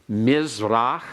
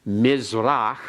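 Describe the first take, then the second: No difference in how they are said.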